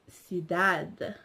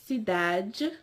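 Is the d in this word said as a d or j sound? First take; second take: d; j. First: The d before i keeps a d sound. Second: The d before i sounds like a j. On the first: This is the European pronunciation. "Whereas the Europeans will pronounce it as cidade" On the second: This is the Brazilian pronunciation. "the Brazilians will pr pronounce it as cidade"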